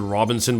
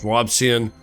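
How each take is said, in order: First: The name is said with an extra n sound. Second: The name is said without an extra n sound. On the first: The speaker calls it wrong. "I want to pronounce it Robinson, but it's not" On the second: The speaker calls it right. "it's Robsian"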